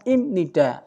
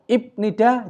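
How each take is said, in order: First: It is said with an M sound before nida. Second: It is said with a B sound before nida. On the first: The speaker calls it right. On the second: The speaker calls it wrong.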